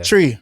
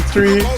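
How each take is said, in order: First: It starts with a hard 't' sound. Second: It starts with a soft 'th' sound.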